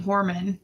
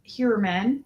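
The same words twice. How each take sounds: First: Horman with a plain "hor" opening; former pronunciation. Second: Heuermann with a "hyoo-er" opening; corrected pronunciation. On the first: Vlogger admitting an earlier attempt, surname pronounced Horman. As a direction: say Horman as "HOR-man", no "hyoo". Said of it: "I was saying Horman". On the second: Vlogger correcting the surname, Heuermann pronounced with "hyoo". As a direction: say Heuermann as "HYOO-er-man", rising at the end. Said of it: "I guess you pronounce it". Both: Shown as a demonstration.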